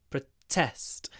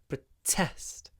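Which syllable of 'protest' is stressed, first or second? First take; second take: second; second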